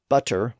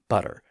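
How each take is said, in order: First: The middle consonant is a clear T sound. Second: The middle consonant is a soft D sound.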